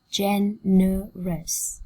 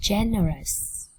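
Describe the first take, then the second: First: Very slow GEN-E-ROUS, syllables apart. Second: Said in the usual way. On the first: Shown as a demonstration. Teacher modelling generous for students, slowly split up. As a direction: sound out Generous slowly, one syllable at a time. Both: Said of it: "Cô giáo đọc chậm nhá".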